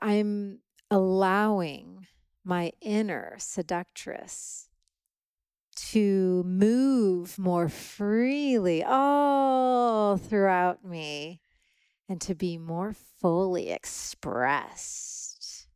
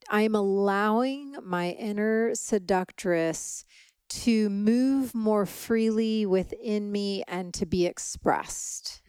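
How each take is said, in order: First: It is said in a sultry, seductive way. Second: It is said in a plain, neutral way.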